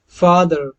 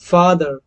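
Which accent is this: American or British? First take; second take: American; British. First: It is said in an American accent. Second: It is said in a British accent.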